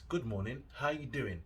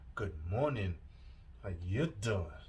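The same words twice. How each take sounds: First: It is said in a plain, neutral tone. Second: It is said in a suggestive, flirtatious tone. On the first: It is just an ordinary greeting. "You can say it like that" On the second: The speaker is coming on to the listener. "Get me, Joey from Friends"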